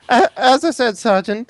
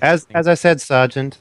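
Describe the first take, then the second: First: It is spoken in a put-on character voice. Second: It is spoken in the speaker's ordinary voice. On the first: The speaker calls it right. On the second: The speaker calls it wrong.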